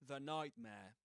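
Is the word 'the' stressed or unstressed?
unstressed. The word 'the' is unstressed, with a schwa.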